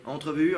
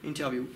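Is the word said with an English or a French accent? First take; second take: French; English. First: The word is said with a French accent. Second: The word is said with an English accent.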